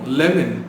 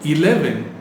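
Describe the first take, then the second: First: The word begins with an L sound. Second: The word begins with a vowel sound. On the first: The speaker calls it wrong. "which is wrong" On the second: The speaker calls it right. "ஆரம்பிக்கிற எழுத்து ஈல ஆரம்பிக்குது இல்லையா"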